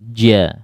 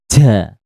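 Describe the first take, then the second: First: The consonant is voiced with no escaping air. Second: The consonant has audible air escaping. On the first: The speaker calls it right. "huruf ja itu jahar" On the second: The speaker calls it wrong. "Kalau ja itu berarti ada anginnya"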